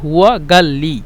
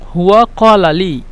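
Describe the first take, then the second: First: The verb begins with a hard g sound. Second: The verb begins with a deep q sound. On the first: This is how people in Upper Egypt say it. "আহলুস সুআইদ যারা সেটা বলে হুয়া গাল্লি" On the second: This is the standard language. "এটা হলো শুদ্ধ ভাষা"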